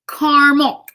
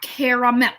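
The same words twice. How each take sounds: First: The middle vowel is dropped from the word. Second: The middle vowel is pronounced in the word. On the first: This is the speaker's own usual way of saying it. "it's just how I say it" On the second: This is the way the speaker does not say it. "I know there's that extra A"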